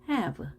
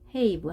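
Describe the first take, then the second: First: The vowel is a short open 'a' sound. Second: The vowel is a long 'ay' sound. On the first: The speaker calls it right. "이 단어는 e로 읽습니다 ... have 합니다" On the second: The speaker calls it wrong. "끝에 e가 있으면 앞에 a로 읽어야 되지만 ... have 하지 않고"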